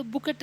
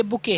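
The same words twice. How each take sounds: First: बुकेट with a sounded final T; T pronounced. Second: बुके ending on an open vowel, no T; silent T. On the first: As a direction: end बुकेट on a clear T, as people misread it. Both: Shown as a demonstration. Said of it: "टी silent होता है".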